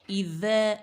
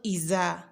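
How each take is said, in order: First: The consonant is a 'th' as in 'this'. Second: The consonant is a 'z' sound. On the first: The speaker calls it right. "that ذال close to dal" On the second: The speaker calls it wrong. "not the one close to raw, za"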